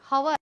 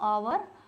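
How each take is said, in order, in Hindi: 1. यह शब्द एक साफ़ h की आवाज़ से शुरू होता है। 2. यह शब्द एक स्वर से शुरू होता है, इसमें h नहीं है। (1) "हवर पढ़ोगे अगर इसे हवर" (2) "ये एच यहाँ पे साइलेंट है मेरा"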